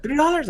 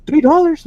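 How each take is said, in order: First: High, squeaky disbelieving question; a retold, hammed-up three dollars; shocked disbelief. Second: Sudden high, loud disbelieving question; retelling a customer's shocked three dollars; shocked disbelief. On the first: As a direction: mimic her stunned reaction. Retelling the customer's shock again. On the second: Retold or imitated. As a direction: squeak it out in total disbelief.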